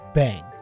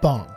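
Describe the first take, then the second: First: The vowel sounds like the one in 'bang'. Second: The vowel sounds like the one in 'bong'. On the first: The speaker calls it wrong. "that was the incorrect pronunciation" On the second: The speaker calls it right. "It is actually bong"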